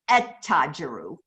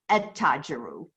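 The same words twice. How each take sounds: First: The L blends into a doubled T sound. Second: The L blends into a doubled T sound.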